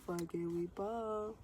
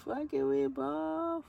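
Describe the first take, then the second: First: Said in the usual way. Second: Higher, slow and punchy; hyped mantra. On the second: Shown as a demonstration. She hypes herself up before her sister's birthday. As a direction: chant it to pump yourself up. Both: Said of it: "repeats phrase variously".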